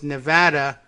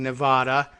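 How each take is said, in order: First: The name is pronounced the local English way. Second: The name is pronounced following its Spanish form. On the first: It defers to the local settler population's usage. The speaker calls it wrong. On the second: It respects the name's Spanish origin. The speaker calls it right. "the correct pronunciation really should be based on the Spanish name for the state"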